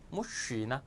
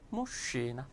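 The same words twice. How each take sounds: The two takes are said the same way.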